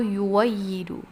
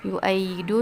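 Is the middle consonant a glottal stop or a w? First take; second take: w; glottal stop. First: The middle consonant is a w sound. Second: The middle consonant is a glottal stop.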